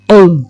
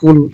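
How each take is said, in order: First: It starts with a deep, back-of-throat q sound. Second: It starts with a light, front k sound. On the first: It means 'say'. The speaker calls it right. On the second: It means 'eat'. The speaker calls it wrong.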